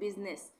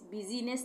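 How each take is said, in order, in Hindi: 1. इस शब्द में बीच में कोई स्वर नहीं है। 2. इस शब्द में बीच में एक अतिरिक्त स्वर है। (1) "तो आई साइलेंट है" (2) "बिजीनेस नहीं पढ़ेंगे"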